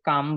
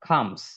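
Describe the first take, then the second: First: It starts with a plain, unaspirated k sound. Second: It starts with a breathy, aspirated kh sound. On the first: The speaker calls it wrong. "আমরা সির উচ্চারণ ক দিয়ে করে থাকি, কাম বলি, এটা কাম না" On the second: The speaker calls it right. "এটা হচ্ছে খর উচ্চারণ হবে"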